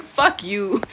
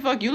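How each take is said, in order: First: A light imitation of an Italian accent. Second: Said in the usual way. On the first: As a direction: mimic his little Italian accent lightly. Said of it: "in his little Italian accent". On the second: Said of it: "didn't even realize that he said".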